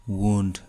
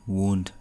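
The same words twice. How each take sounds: No difference in how they are said.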